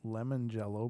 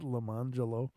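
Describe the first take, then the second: First: It sounds like the ordinary words lemon jello. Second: It is said in an unusual, name-like way.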